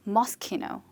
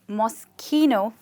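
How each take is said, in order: First: The name is said at a quicker pace. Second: The name is said at a slower pace.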